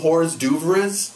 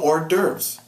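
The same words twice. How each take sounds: First: It is pronounced as spelled, English-style. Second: It is pronounced the French way. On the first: The speaker calls it wrong. "You don't you don't pronounce it just the way you spell it" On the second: The speaker calls it right. "No, they serve you hors d'oeuvres. because it comes from French"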